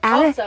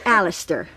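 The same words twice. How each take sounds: First: The name is said with an English pronunciation. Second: The name is said with an American pronunciation. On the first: "Daddy, who's English, will say Alistair" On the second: "Americans say Alistair"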